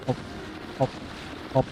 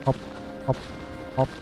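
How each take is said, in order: Both takes have the same delivery.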